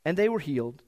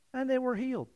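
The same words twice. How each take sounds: First: Said in the usual way. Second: High, soft, offhand reading; mock-casual understatement in a high, soft voice; calm understatement. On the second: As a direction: read it lightly, as if it were no big deal. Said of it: "says it so calmly, so quietly".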